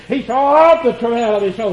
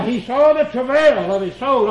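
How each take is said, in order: First: Of leaned on in "He saw of the travail"; stress on of. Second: Said in the usual way. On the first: Shown as a demonstration. Preacher showing the word "of" to the congregation, stressed. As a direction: press the little word "of". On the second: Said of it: "passed over that little word, of".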